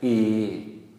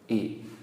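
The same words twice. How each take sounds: First: The vowel is long with a mid tone. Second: The vowel is short with a low tone. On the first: "a long mid-tone for this one" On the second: "short low tone"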